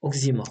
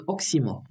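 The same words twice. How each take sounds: First: اوكزيمور said with a z sound, as many people do; اوكزيمور with a voiced z in the middle; wrong pronunciation. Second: اوكسيمور said with a clear ks sound; اوكسيمور with a crisp unvoiced ks; correct pronunciation. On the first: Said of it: "راه بزاف الناس كينطقوها". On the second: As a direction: say اوكسيمور properly, with ks not z. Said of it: "وكتنطق اوكسيمور ماشي اوكزيمور". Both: Shown as a demonstration.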